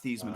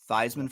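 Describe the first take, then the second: First: The first syllable does not rhyme with Heisman. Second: The first syllable rhymes with Heisman. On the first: This is the family's original pronunciation. "not Thiesman for the Heisman" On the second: The name was changed to match the trophy. "Theismann for the Heisman"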